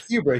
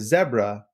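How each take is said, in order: First: Zebra is said with an American pronunciation. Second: Zebra is said with a British pronunciation. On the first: "we say zebra here" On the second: "I will adapt it for our wonderful U K listeners"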